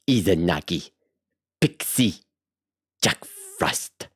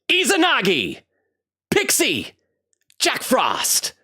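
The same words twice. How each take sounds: First: It is said in the speaker's natural voice. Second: It is said in a put-on hero voice.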